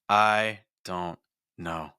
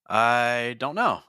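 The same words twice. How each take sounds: First: It is split into three chunks by pauses. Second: It is split into two chunks by a pause. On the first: "now I have three thought groups" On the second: "now I have two thought groups"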